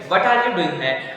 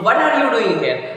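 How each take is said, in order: First: It is said in a calm, neutral tone. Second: It is said in an angry tone.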